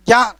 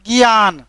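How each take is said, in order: First: ज्ञान said "jiyan", starting on j; formal pronunciation. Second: ज्ञान said "giyan", starting on g; Khortha pronunciation. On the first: Teacher citing what we don't say, formal j in ज्ञान. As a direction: open ज्ञान with j plus ya. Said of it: "ज्ञान तो नहीं बोलते". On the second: Teacher showing what we really say, Khortha g in ज्ञान. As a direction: open ज्ञान with g and a short i. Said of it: "हम लोग ज्ञान बोलते हैं". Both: Shown as a demonstration.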